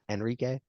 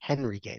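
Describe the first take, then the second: First: The name begins with no H sound. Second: The name begins with an audible H sound. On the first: The speaker calls it wrong. "not Enrique ... the H is silent" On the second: The speaker calls it right.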